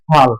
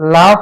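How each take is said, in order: First: The word begins with an f sound. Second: The word begins with an l sound. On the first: This is the regional form, with the consonants swapped. "চট্টগ্রামের আঞ্চলিক ভাষায় মানুষরা বলতেছে ফাল" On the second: This is the standard form of the word. "ধরে নিলাম লাফ একটা শব্দ"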